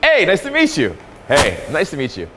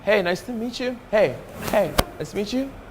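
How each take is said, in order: First: It sounds open, direct and full of energy. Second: It sounds hesitant and low in energy.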